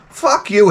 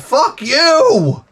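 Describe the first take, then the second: First: Angry retort. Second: Higher angry retort. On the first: Cursing out the AI. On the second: Cursing out the AI, higher. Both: Acted.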